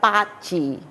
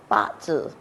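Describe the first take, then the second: First: The term is pronounced the Cantonese way. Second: The term is pronounced the Mandarin way. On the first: "in Cantonese we call it Ba Chi" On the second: "Mandarin we call it Ba Zhi"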